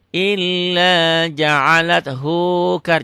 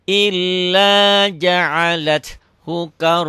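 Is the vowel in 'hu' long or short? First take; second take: long; short. First: The vowel in hu is drawn out long. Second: The vowel in hu is kept short. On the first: The speaker calls it wrong. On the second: The speaker calls it right. "hunya pendek"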